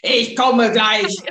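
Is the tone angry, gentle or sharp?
angry. It is said in an angry, loud tone.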